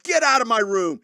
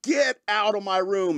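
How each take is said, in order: First: Loud, high angry outburst; retold angry shout. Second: Slow, high, drawn-out angry command; retold angry order. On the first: Woken man throwing the dog out, angry shout. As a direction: yell it like you're furious at the dog. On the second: Repeating the order to the dog, slow and angry. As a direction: stretch out each word, mock fury. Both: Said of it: "and you're mad".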